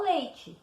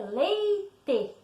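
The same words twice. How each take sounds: First: "leite" said lei-tchi; everyday pronunciation. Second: "leite" drawn out in two syllables, lei-tê; spelling pronunciation. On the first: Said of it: "A gente fala leite". ("leite" como a gente fala: lei-tchi) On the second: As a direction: say "leite" slowly as written, with hard T and full E. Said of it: "a escrita correta é leite". ("leite" devagar, como se escreve: lei-tê) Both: Shown as a demonstration.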